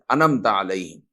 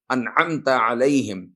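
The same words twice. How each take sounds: First: "انمتا علیہم" low and quicker, with the ain dropped; mispronounced. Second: "انعمت علیہم" slow, with a clear throaty ain; correct recitation. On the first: Teacher mimicking people's mistake in Fatiha, careless mispronunciation. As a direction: recite "انمتا علیہم" carelessly, no throat sound. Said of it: "انمتا بولے". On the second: Teacher showing proper Fatiha recitation, slow careful articulation. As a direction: recite "انعمت علیہم" slowly, each Arabic letter distinct. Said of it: "ادائیگی درست نہیں ہوتی". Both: Shown as a demonstration.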